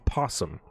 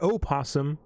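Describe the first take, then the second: First: The word begins directly with a P sound. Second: The word begins with an O vowel sound. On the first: The speaker calls it right. "you don't pronounce the O, you call it a possum" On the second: The speaker calls it wrong. "It's not an opossum"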